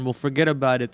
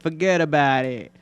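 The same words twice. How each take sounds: First: Said in the usual way. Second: Put-on playful New York accent; put-on New York wiseguy phrasing. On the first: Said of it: "New York accent". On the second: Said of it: "I would love to have a New York accent".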